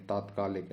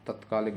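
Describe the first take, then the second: First: तात्कालिक with a long aa at the start; correct pronunciation. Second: तत्कालिक with a short first vowel; wrong pronunciation. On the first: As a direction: stretch तात् in तात्कालिक. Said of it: "तत्कालिक नहीं है". (तात्कालिक में लंबा 'ता') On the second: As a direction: clip तत् in तत्कालिक. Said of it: "नहीं है". (तत्कालिक में छोटा 'त') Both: Shown as a demonstration.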